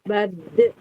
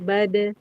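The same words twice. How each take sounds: First: The consonant bounce is forced and exaggerated. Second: The consonant bounce is light and natural. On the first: The speaker calls it wrong. "Tidak dibuat-buat mantulnya" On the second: The speaker calls it right. "Dia mantulnya itu natural"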